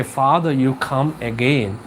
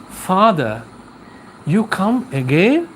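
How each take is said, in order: First: Said in the usual way. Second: Lightly acted wife, "again" rising into a question; the sick man's wife greets the priest, mildly puzzled; wife's question. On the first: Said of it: "Why did she say". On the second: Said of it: "And she asks like this".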